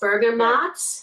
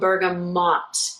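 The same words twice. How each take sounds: First: The last syllable sounds like 'maht'. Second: The last syllable sounds like 'moht'. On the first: "spelled with a M A A T sound" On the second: "M O T, with that kind of a sound"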